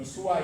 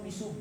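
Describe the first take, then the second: First: Misua with an extra a, mi-su-a; wrong pronunciation. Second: Misu said as two clean syllables mi-su; correct pronunciation. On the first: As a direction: say the wrong form misua, three syllables. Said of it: "bukan misua ya". (misua diucapkan salah, mi-su-a) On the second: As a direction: say misu, ending on a short u. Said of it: "Atau misu, bukan misua ya". (misu diucapkan mi-su, tanpa a di akhir) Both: Shown as a demonstration.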